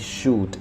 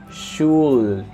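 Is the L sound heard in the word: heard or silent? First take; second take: silent; heard. First: The L sound is silent in the word. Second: The L sound is pronounced in the word. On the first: The speaker calls it right. "the L ... is mute. You say should, and that's it" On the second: The speaker calls it wrong. "you don't say should, no"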